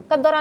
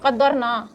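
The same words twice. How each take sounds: First: قدرہ read wrongly as qaddara, ending in a short a; the student's wrong قدرہ, said as qaddara. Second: قدرنا said as qadarna, with a clear n before the final a; the corrected قدرنا, read qadarna. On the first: Teacher quotes the student's mistaken قدرہ, pronounced qaddara. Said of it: "آپ یہ word غلط پڑھ رہے ہیں". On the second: Teacher gives the student the right reading, قدرنا pronounced qadarna. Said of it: "قدرہ نہیں ہو سکتا یہ". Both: Shown as a demonstration.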